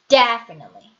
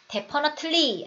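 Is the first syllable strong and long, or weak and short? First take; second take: strong and long; weak and short. First: The first syllable is strong and long. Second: The first syllable is weak and short. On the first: The speaker calls it right. "대에다가 소리를 힘을 빡 하고 주고 길게 가셔야 돼요" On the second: The speaker calls it wrong. "아니고"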